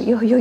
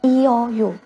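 First: The vowels are said fast and merge together. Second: The three vowels are said as separate syllables.

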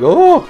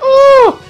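First: It is a moderate yell. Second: It is a louder, intense scream.

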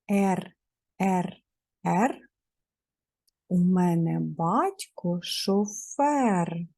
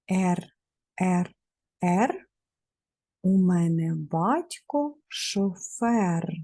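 The two takes are said the same way.

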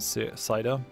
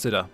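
First: The word is said with a drawn-out vowel. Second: The word is said with a clipped vowel.

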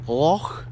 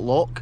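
First: It ends in a soft throaty rasping sound. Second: It ends in a hard k sound. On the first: The speaker calls it right. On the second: The speaker calls it wrong. "not Loch"

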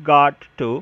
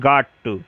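Both takes have the same delivery.

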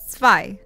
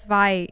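First: The word begins with a ts sound. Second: The word begins with a plain buzzing z sound. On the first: The speaker calls it right. "Can you pronounce the Z as a TS as Germans do?" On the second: The speaker calls it wrong. "It's not Zwei"

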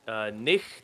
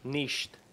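First: The ch is a throaty, scraping sound. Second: The ch is a soft sh sound. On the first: "There's two dialects. They either go" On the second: "or sh"

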